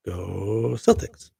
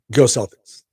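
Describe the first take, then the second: First: Slow, stretched Go Celtics; drawn-out cheer. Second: Loud quick cheer, GO punched. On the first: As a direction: draw out every syllable, rising at the end. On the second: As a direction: shout it for the Boston fans. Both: Real, not acted. Cheering on the Boston team.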